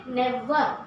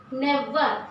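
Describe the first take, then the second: No difference in how they are said.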